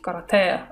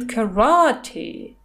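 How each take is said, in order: First: The stress is not on the second syllable. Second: The stress is on the second syllable. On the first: "Это по-русски карате" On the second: "то есть ударение на второе А"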